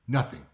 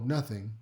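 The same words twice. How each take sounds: First: It sounds curt and angry. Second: It sounds casual and unbothered. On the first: Something is wrong and the listener caused it. "the same word, but they said it in a different way" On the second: They were simply distracted or tired. "maybe they were just zoned out, they're tired"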